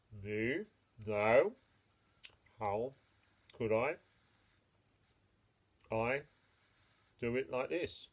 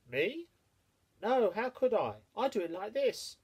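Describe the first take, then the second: First: Lower, slow cow voice; a hint of a lazy chewing cow. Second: High, quick little hare voice. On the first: The cow chewing cud, answering the mole, low and unhurried. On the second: Acted. The hare answering the mole, high and lively. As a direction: pitch it up like a nimble hare.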